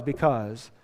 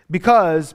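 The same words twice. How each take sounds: First: "because" dropped much softer, lower and falling. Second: "Because" hit hard and louder, falling; emphatic because. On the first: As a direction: let "because" sink to a quiet close. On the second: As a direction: punch the word "Because" like a preacher. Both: Shown as a demonstration. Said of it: "the word is because".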